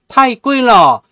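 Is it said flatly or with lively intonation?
flat. It is said flatly, like a textbook.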